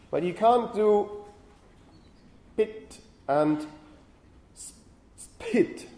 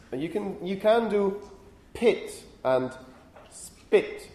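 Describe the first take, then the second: First: The p in spit forced breathy, like pit; spit forced with aspiration. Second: Pit with a puff of air, spit without; aspirated pit, plain spit. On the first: Lecturer showing students the impossible version, spit with a puffed p. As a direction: spit said with an odd puff after the s, pitch jumping up. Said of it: "it's very difficult to do this". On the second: Lecturer demonstrating to students, aspirated pit then unaspirated spit. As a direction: pit said with a strong breathy burst of air, spit with none. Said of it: "let me try to do this". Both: Shown as a demonstration.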